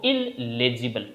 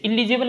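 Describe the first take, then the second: First: इललेजिबल with a held double l, il-le-jibel; right pronunciation. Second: इलिजिबल said with short i and no double l; the mistaken reading इलिजिबल; wrong pronunciation. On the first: Teacher gives students the correct reading इललेजिबल. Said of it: "इसे पढ़ना है आप लोगों को इललेजिबल". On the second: Teacher shows students the wrong reading इलिजिबल. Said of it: "इसे इलिजिबल नहीं पढ़ना है". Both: Shown as a demonstration.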